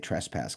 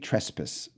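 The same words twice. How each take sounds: First: It is said the North American way. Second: It is said the British way.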